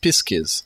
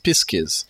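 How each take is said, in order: First: The middle sounds are s then k. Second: The middle sounds are s then k.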